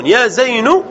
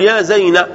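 First: زين ending in a u after the n; damma ending. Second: زينب cut after the n, ending in a; fatha ending. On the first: Teacher shows the non-waiting form, زين ending in nu. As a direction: say زين as zaynu, without the b. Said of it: "من لا ينتظر". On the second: Teacher shows the awaited-letter form, زينب said as zayna. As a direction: drop the b of زينب and end on na. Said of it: "مبنية على الفتح". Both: Shown as a demonstration.

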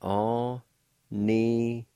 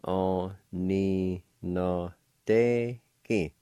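First: Aninadeki drawn out slowly; slow model word. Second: Aninadeki stretched syllable by syllable, very slowly. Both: Shown as a demonstration. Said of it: "it's pronounced like this".

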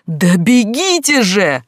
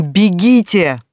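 First: Истошный крик, высоко и медленно; сорвись на истерику, очень громко; истерический крик. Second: Громкий крик, выше обычного; выкрикни приказ во весь голос; крик не своим голосом. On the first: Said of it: "истерически заорала Глаша". (истерический вопль) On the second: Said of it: "заорала не своим голосом". (отчаянный крик) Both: Acted.

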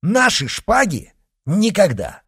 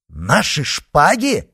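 First: Much higher, loud indignant cry; flatly refuse, ringing; loud outraged refusal; defiant refusal. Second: Slow, louder incredulous question; louder, higher disbelief; indignant exclamation. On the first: Refusing to surrender swords. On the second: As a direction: repeat it in outrage. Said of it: "воскликнул Д'Артаньян". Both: Acted.

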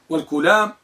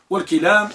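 First: والكلام said walkulam; u after the k in والكلام; kulam with damma. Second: والكلام said walkilam; i after the k in والكلام; kilam with kasra. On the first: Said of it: "بضم الكاف". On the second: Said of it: "بكسر الكاف". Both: Shown as a demonstration.

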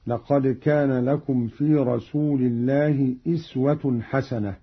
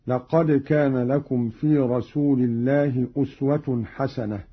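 First: "أسوة" opened with an i sound, iswa; kasra on the hamza. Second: Said in the usual way. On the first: Shown as a demonstration. Teacher showing Qalun's reading, "أسوة" said with initial i. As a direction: read "أسوة" as iswatun, i rather than u. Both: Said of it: "بكسر الهمزة هكذا".

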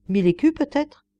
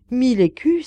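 First: Said in the usual way. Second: Louder, higher, alarmed exclamation; startled cry. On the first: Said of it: "La vieille femme eut presque une frayeur". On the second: A narrator's reading. Old woman shocked by Schröder's offer, crying out. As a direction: cry out, frightened by the sum. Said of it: "s'écria-t-elle".

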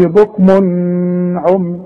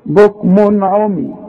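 First: Mistaken long humming n at the end of "بكم"; wrong ghunnah. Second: "بكم" ending in a clean n, straight into "عمي"; no ghunnah. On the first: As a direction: imitate the error, holding "بكم" in a hum before "عمي". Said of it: "ما اقولش". (تقليد الغلط: "بكم عمي" بغنة طويلة) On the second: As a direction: keep the n of "بكم" short before "عمي". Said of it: "يبقى ما غنش". ("بكم عمي" بنون ظاهرة من غير غنة) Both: Shown as a demonstration.

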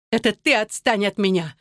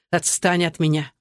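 First: Higher-pitched retort, leaning on "ты"; tearful retort. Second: Said in the usual way. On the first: A narrator's reading. Wife hurls husband's order back at him, tearful retort. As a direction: throw it back at him, "ты" raised. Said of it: "задыхаясь от слёз".

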